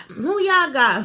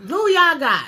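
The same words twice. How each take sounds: First: "Who y'all got?" stretched out slowly; slow teasing repeat; slow drawn-out question. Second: A loud, higher call-out to the audience; punchy loud ask; loud question. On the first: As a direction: drag the question out. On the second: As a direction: call out to the viewers. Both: Pretend.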